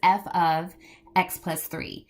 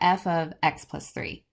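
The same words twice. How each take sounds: First: 'x plus three' is grouped together after 'f of'. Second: There is a break after 'x', before 'plus three'. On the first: Three is added to x inside the function. The speaker calls it right. "That three is housed in with where x is" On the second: Three is added to the whole function. The speaker calls it wrong. "I said it as if it was f of x and then plus three"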